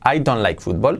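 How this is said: It is spoken with a Spanish-style accent. The speaker calls it wrong. "nadie lo pronunciaría así... los españoles, los hispanos que aprendemos inglés... hablaremos así"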